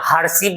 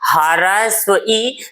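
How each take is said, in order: First: It is run together into one short word. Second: It is said as two separate full words. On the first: This is the everyday casual way of saying it. "बोलने के लिए गाँव घर में हर्षी बोल देता है" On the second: This is the proper name of the vowel. "इसको हरस्व ई"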